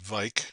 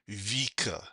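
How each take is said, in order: First: The name is said with an English pronunciation. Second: The name is said with a Norwegian pronunciation. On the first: "if you want to call it Vike or Vik, that's perfectly fine" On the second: "I'm using the Norwegian pronunciation of the word"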